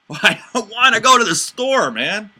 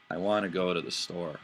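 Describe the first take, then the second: First: Loud, high mocking "I don't wanna go"; exaggerated, scoffing refusal, much higher and louder; sarcastic refusal. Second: Said in the usual way. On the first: Shown as a demonstration. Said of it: "I meant two completely different things". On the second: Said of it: "I said the exact same words".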